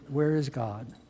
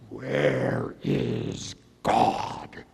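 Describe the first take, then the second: First: It is asked in a softer, gentle voice. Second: It is asked in a deep, stern voice.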